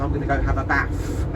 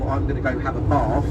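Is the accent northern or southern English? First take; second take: northern; southern. First: It is said in a northern English accent. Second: It is said in a posh southern English accent. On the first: This is how people say it in Manchester. "she goes" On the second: This is how people say it in London. "that's how you say posh down in London"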